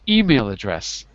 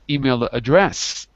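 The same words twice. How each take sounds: First: The stress falls on the word email. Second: The stress falls on the word address. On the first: The speaker calls it right. "I put the stress on email" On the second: The speaker calls it wrong. "not email address"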